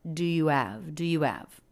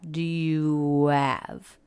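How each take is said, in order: First: "Do you have?" fast, with "do" and "you" blended; quick and reduced. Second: "Do you have?" drawn out, every word clear; slow, overly careful. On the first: Teacher showing the natural quick version. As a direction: toss the three words off quickly. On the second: Teacher showing the wrong, too-careful version. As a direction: say each word slowly and fully. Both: Shown as a demonstration.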